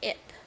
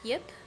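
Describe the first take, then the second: First: The name begins directly with a vowel. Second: The name begins with a y sound. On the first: "Like no yuh sound in it" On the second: "I thought that was supposed to be like Yip"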